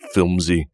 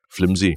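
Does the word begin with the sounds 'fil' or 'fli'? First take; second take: fil; fli. First: The l sound comes after the i vowel. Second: The l sound comes before the i vowel. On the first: The speaker calls it wrong. "thought the word was filmsy" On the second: The speaker calls it right. "It's flimsy"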